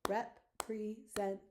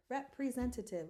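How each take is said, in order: First: Representative slowly chopped into five beats with gaps; syllable by syllable. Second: Said in the usual way. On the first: Shown as a demonstration. Teacher counting syllables for the class, slow separated beats. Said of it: "Let's count our syllables". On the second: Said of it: "So what was our word?".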